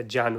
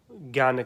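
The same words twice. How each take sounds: First: ज्ञान said as "jyan"; pure pronunciation. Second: Said in the usual way. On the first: Shown as a demonstration. Teacher offering the alternative term, ज्ञान as "jyan". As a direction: swap the g of ज्ञान for a j sound. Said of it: "शुद्ध जो pronunciation". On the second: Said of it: "सामान्यतः हम ज्ञान इसका".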